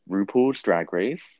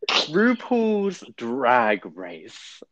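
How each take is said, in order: First: It is said with little energy. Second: It is said with more energy.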